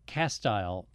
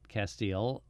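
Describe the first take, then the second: First: The last vowel sounds like 'eye'. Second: The last vowel sounds like 'ee'. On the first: This is how local people say the place name. The speaker calls it right. "Castile is Castile" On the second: This is how outsiders say the place name. The speaker calls it wrong. "not Castile"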